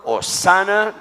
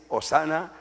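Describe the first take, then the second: First: Hosana cried out high and loud; acclaimed Hosana. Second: Said in the usual way. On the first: Acted. Preacher voicing crowd, loud acclaimed Hosana. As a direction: shout Hosana as a joyful cheer. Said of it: "aclamaba diciendo". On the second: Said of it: "¿sí?".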